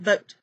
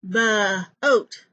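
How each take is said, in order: First: The b runs straight into the vowel. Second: An extra uh vowel follows the b sound. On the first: The speaker calls it right. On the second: The speaker calls it wrong.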